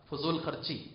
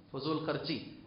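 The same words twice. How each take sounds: The two takes are said the same way.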